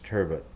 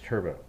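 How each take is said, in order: First: It is said with an English pronunciation. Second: It is said with a French pronunciation. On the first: "English pronunciation is turbot" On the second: "French pronunciation is turbo"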